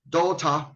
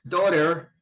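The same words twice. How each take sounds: First: It is said with a British accent. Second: It is said with an American accent. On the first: "Daughter is a British pronunciation" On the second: "Daughter is an American pronunciation"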